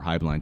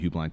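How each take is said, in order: First: The first syllable sounds like 'high'. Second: The first syllable sounds like 'hue'. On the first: "they call it Highblind" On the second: "it looks like Hubeline"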